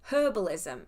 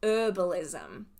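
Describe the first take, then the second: First: The word begins with a clear h sound. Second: The word begins with a vowel, no h. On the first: "we actually put a H in front of it" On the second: "not herbalism"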